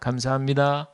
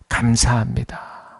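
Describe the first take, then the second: First: It is said casually, without feeling. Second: It is said warmly, with deep feeling.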